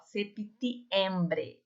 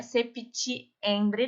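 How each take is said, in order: First: Very slow "septiembre" with a clean t and p; clean Spanish t. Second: "septiembre" with a Portuguese tch before i; wrong tch sound. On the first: Teacher models the correct t slowly. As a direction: stretch "septiembre", tongue at the teeth. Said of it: "fica entre os dentes". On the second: Teacher shows students the sound to avoid. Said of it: "o T aqui não é septiembre". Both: Shown as a demonstration.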